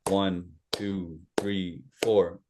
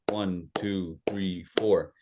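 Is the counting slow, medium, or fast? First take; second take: medium; fast. First: It is counted at a medium pace. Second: It is counted at a fast pace.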